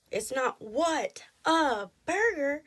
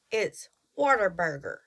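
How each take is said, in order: First: "What a Burger" slow, three separate words, pitched up; separated What a Burger. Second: "Whataburger" run together as one word. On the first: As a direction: draw out "What a Burger" word by word. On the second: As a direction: say "Whataburger" in one quick breath. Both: Shown as a demonstration.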